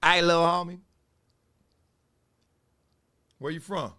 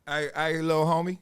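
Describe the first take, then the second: First: Louder LA gangbanger call-out; a hint of LA street menace; L A gang voice. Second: Lightly voiced LA gangbanger greeting; a hint of LA street voice; L A gang voice. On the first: Comic imitating the banger sizing him up, louder LA street voice. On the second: Stand-up comic imitating a gangbanger on the bus, light LA street voice. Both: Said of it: "That L A voice".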